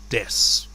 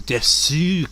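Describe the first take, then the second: First: The final u vowel is dropped entirely. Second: The final u vowel is clearly pronounced. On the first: "This just feels more like des. Just sounds more natural" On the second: "if you want to emphasize on the oo"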